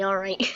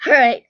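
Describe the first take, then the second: First: Said in the usual way. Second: "Alright" belted out, much louder; loud reset "Alright". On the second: Real, not acted. Vlogger restarting her video after a laugh, loud. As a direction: snap back into it with a loud "Alright".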